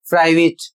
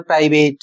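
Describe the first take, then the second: First: प्राइवेट said with a short "it" ending, pri-vit; the right way, प्राइवेट ending in a short "it"; correct private. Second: प्राइवेट said with a full "ate" ending, pri-vate; the common wrong way, प्राइवेट ending in "ate"; wrong private. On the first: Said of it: "सही उच्चारण है". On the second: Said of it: "लोग उच्चारण क्या करते हैं". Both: Shown as a demonstration.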